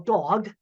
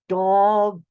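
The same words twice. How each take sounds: First: The word is said at normal speed. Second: The word is said slowly, each sound drawn out.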